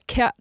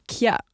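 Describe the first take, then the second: First: The k goes straight into the vowel. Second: A y-like glide follows the k. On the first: The speaker calls it right. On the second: The speaker calls it wrong.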